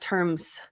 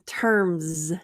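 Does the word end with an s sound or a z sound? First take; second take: s; z. First: The word ends with a hissing s sound. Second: The word ends with a buzzing z sound. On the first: The speaker calls it wrong. "not terms" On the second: The speaker calls it right. "So here we have another Z terms z"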